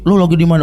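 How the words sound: The question is said harshly, as if picking a fight. An upset reader hears it as a hostile challenge. "Karena dia lagi emosi, ... Oh ngegas nih orang"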